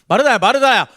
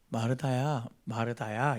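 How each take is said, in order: First: It is said in a cold, pushing tone. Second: It is said in a warm, gentle tone.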